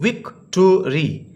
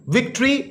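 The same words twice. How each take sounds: First: विक्टोरी slowly split as "vic-to-ree"; syllable by syllable. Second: Said in the usual way. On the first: Shown as a demonstration. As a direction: sound out विक्टोरी in three separate syllables. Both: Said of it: "तीन syllable है बच्चों".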